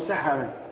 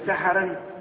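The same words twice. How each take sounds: First: The word ends without an added n sound. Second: The word ends with an added n sound. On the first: The word is treated as not fully declinable. "ممنوع من الصرف" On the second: The word is treated as fully declinable. "بالصرف"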